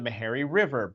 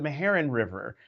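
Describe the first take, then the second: First: The name ends without its final n sound. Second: The name ends with its final n sound. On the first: The speaker calls it wrong. "she'd leave off the end" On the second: The speaker calls it right. "but it's the Meherrin River"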